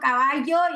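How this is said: It is said with a Mexican accent. "el mexicano caballo"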